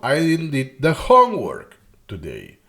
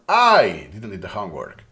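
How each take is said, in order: First: The word homework carries the main stress. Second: The word I carries the main stress. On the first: It was the homework that was not done. "it's the homework, right?" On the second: It was not someone else who failed to do it. "I make emphasis on the person"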